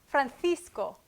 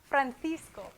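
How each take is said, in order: First: The middle consonant sounds like a th. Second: The same.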